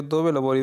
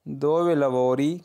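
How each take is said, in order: First: Said in the usual way. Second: Very slow, syllable by syllable; slow model sentence. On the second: Shown as a demonstration. Teacher first reading the question to learners, very slow. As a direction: spell it out slowly for the class. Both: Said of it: "उन्हें इस तरह पूछ सकते हो".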